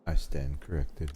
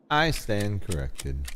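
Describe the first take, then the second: First: Said in the usual way. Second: I stand corrected, said slowly and higher, stretched; slow, drawn-out. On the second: Shown as a demonstration. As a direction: drag it out with mock gravity.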